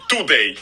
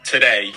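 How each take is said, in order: First: "today" with a dental t and full oo; Russian-style t. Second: "today" with an aspirated t and weak first vowel; correct English t. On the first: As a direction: say "today" as too-DAY, tongue on teeth. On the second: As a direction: say "today" as tuh-DAY. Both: Shown as a demonstration. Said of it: "you're not supposed to say today".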